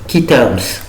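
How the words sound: It is said with an English accent. The speaker calls it right. "pour prononcer correctement"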